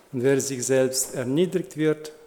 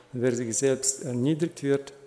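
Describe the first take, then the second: The two takes are said the same way.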